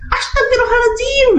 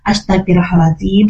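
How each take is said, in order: First: It is said in an exasperated, scolding tone. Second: It is said calmly, with slow steady breathing.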